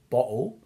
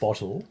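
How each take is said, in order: First: It is said with an English accent. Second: It is said with an Australian accent.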